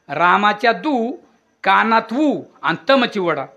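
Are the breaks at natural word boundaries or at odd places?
odd places. Breaks fall inside words, splitting them oddly. The phrase seems to mean something nonsensical.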